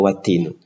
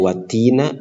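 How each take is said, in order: First: The word ends with a u vowel. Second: The word ends with an a vowel. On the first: "tidak watinu" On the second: "tidak watina"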